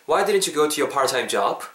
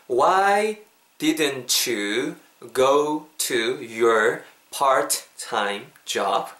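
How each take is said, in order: First: It is said at natural conversational speed. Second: It is said slowly and carefully.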